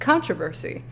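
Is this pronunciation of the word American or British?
American. The word is said the American way. "how do you say it? And I was like, controversy"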